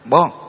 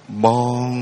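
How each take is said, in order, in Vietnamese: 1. Âm bị cắt ngắn, không có độ vang. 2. Âm được giữ dài, có độ rung ngân. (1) "Chứ không thể nào đây bon" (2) "nó có cái độ rung, là hưởng, là tiếng vang"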